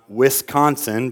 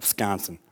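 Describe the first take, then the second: First: The first syllable is said in full. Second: The first syllable is clipped to a W-S sound. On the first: "I know it's not Wisconsin" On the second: "You got to leave the first syllable out. You just put the W-I-S as W-S, and that's how they would pronounce that"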